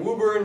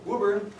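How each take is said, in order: First: Woburn said as WOE-burn, wrong vowel. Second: Woburn said as WOO-burn, local way. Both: Shown as a demonstration. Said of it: "again, not Woburn".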